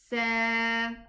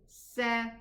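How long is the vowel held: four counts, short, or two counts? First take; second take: two counts; short. First: The vowel is held for two counts. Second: The vowel is cut short. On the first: "Adding an alif, meaning I'm adding more extension" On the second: "I will pronounce it short"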